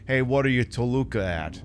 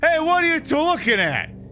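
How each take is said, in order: First: It is said in his regular speaking voice. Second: It is said in a silly put-on accent.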